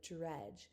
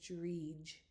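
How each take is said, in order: First: The vowel is a short 'e' sound. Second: The vowel is a long 'ee' sound. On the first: The speaker calls it right. "instead of" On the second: The speaker calls it wrong. "It would change the vowel sound to E"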